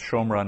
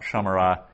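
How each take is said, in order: First: The first vowel is a short o sound. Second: The first vowel is a long a sound. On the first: The speaker calls it right. "it's pronounced shomra" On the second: The speaker calls it wrong. "not shamara"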